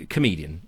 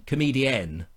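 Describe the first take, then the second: First: Said in the usual way. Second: "Comedienne" with the final "-enne" stressed; stress on the ending. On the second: Shown as a demonstration. Correcting himself on a female comic, "Comedienne" stressed on "-enne". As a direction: lean on the last syllable of "Comedienne". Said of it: "I should say".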